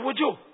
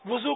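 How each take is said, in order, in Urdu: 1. اس لفظ کا تلفظ تبدیل شدہ، غیر معیاری ہے۔ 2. اس لفظ کا تلفظ معیاری ہے۔ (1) "بولتے ہی ہیں نا باہر باہر ملکوں میں" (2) "وضو کو"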